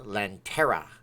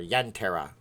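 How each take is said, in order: First: The word begins with an L sound. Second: The word begins with a Y sound. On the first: The speaker calls it wrong. "I did it wrong" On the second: The speaker calls it right. "then I did it right"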